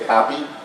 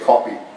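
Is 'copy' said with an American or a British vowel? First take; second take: American; British. First: The first vowel sounds American, open and unrounded. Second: The first vowel sounds British, short and rounded. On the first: "I don't say copy" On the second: "I say copy ... because I'm British trained"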